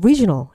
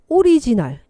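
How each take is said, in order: First: It is said with native English stress and sounds. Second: It is said with Korean-style syllable-by-syllable pronunciation. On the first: This is how the recording's voice says it. "그대는" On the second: This is how the learner says it. "내 입에서는"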